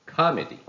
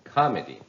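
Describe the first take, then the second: First: The stress is on the first syllable. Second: The stress is on the first syllable.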